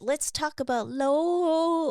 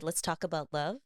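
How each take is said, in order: First: The last word drops its 'v', sounding like 'low'. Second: The last word ends with a clear 'v' sound.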